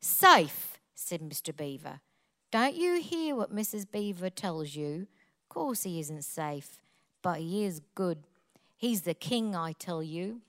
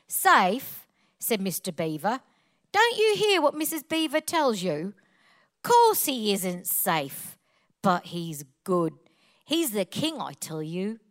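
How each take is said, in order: First: Low, soft Cockney reading after a punched first word; quieter, more reflective Cockney storytelling; Cockney accent. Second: Punchy Cockney reading, slowing on key words; Cockney accent. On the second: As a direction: read it out in your best Cockney. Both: Shown as a demonstration. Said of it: "Please read it with a Cockney accent".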